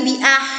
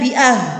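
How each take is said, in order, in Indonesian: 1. Bunyi h jelas dari tenggorokan. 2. Bunyi h lemah dan tidak jelas. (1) "huruf haknya harus jelas bersih di tenggorokan"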